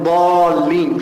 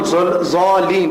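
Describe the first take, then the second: First: The word starts with a plain d sound. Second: The word starts with a dh-like sound. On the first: "rather than daleen" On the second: "pronounce dhal instead of dal"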